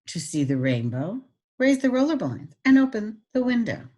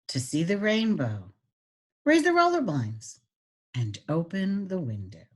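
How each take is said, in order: First: The sentence is read at a quicker pace. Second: The sentence is read at a slow pace. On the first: "If you wanted to go not that slow" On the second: "if you want this slower"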